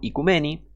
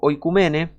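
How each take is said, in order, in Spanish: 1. La palabra empieza con un sonido 'ee'. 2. La palabra empieza con un sonido 'oy'. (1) "se pronuncia en griego moderno" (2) "Del griego antiguo"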